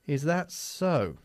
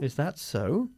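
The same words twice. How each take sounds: First: It sounds sarcastic and disbelieving. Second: It sounds plainly, mildly interested. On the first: The listener does not believe the claim. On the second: The listener accepts the mildly interesting news.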